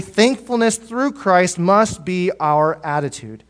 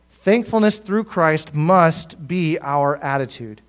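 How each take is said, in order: First: Slow emphatic statement. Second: Slow repeated emphasis. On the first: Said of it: "repeated for emphasis". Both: Shown as a demonstration.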